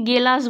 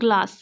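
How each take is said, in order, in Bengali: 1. একটা বাড়তি স্বরধ্বনি প্রথম দুটো ব্যঞ্জনকে আলাদা করে। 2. প্রথম দুটো ব্যঞ্জন একসাথে শক্ত যুক্তব্যঞ্জন তৈরি করে। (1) "ছোটবেলায় আমরা হয়তো অনেকেই গেলাস বলছি" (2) "ওটা গেলাস নয়, ওটা গ্লাস"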